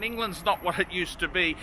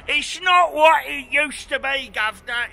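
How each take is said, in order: First: Said in the usual way. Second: Hammed-up cockney accent, louder and higher; a cheeky cockney voice grumbling that England is not what it used to be; mock cockney accent. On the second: Mock Englishman ending "governor.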